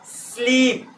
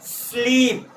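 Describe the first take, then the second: Both takes have the same delivery.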